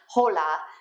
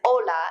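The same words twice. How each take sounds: First: The word starts with an audible h sound. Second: The word starts with a vowel, h silent. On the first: The speaker calls it wrong. "and not hola" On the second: The speaker calls it right. "hola is hola"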